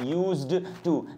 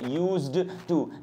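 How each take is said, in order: First: The d sound is clearly pronounced before 'to'. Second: The same.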